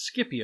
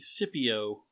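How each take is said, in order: First: The C is pronounced hard, like a K. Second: The C is silent or soft, like S. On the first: "I always pronounce it as Scipio" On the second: "often pronounced as the Scipio"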